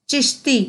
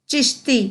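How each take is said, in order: No difference in how they are said.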